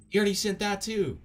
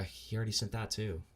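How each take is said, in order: First: Loud, high-pitched exasperated yell; exasperated shout. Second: Said in the usual way. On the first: Real, not acted. Streamer fed up with repeated messages, exasperated shout.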